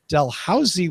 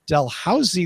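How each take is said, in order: First: It uses the upper-class pronunciation. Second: The same.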